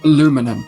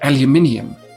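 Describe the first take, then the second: First: It is said the American way. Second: It is said the British way. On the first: "Americans pronounce it aluminum" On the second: "in the Great United Kingdom, we pronounce it aluminium"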